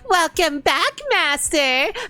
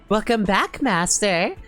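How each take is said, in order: First: It is said in a cutesy anime maid voice. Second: It is read in a plain, normal voice.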